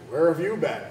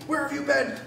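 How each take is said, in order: First: It is said calmly and quietly. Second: It is said angrily, almost shouting.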